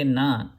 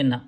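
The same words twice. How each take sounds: First: "na" with the tongue pushed slightly back from the teeth. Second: "na" with the tongue at the back of the teeth; dental na. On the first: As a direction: say "na" with the tongue further back in the mouth. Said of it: "push your tongue slightly back". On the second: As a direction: say "na" pressing the tongue to the upper teeth. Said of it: "Keep the tongue on your teeth". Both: Shown as a demonstration.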